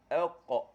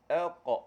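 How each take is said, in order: The two takes are said the same way.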